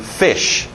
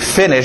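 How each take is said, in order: First: The middle n sound is dropped. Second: The middle n sound is clearly pronounced. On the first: The speaker calls it wrong. "geralmente o N só acaba saindo fish" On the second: The speaker calls it right. "Em vez de finish"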